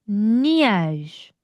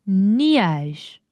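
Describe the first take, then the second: No difference in how they are said.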